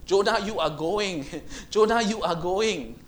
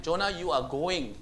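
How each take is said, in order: First: Insistent call. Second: Said in the usual way. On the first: Acted. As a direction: call Jonah back, rising insistence. God insisting, repeated louder.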